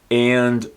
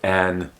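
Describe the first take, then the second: First: The word is said in full with its vowel. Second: The word is reduced to a bare n sound.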